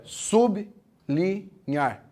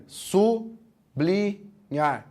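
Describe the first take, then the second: First: Very slow SUB... LI... NHAR, three spaced syllables; separação certa. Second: Very slow SU... BLI... NHAR, three spaced syllables; separação errada. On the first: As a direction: split "sublinhar" with B ending the first syllable: sub – li – nhar. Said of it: "O certo é". ("sublinhar" separado certo, sub – li – nhar, bem devagar) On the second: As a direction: split "sublinhar" wrongly, B starting the second syllable: su – bli – nhar. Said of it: "Assim tá errado". ("sublinhar" separado errado, su – bli – nhar, bem devagar) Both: Shown as a demonstration.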